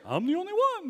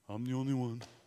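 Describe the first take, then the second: First: It is said in a bouncy, energetic character voice. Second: It is said in a slow, gloomy character voice. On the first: Being the only one is something to boast about. "I do a terrible Tigger voice" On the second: Being the only one is something to lament. "he says it in the Eeyore voice"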